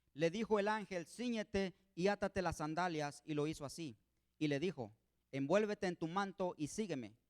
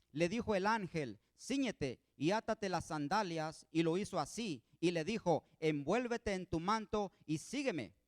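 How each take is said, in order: Both takes have the same delivery.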